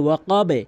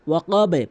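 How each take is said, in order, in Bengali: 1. শেষের b নিচের দিকে প্রতিধ্বনি তুলে লাফায়। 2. শেষের b নিচের দিকে প্রতিধ্বনি তুলে লাফায়।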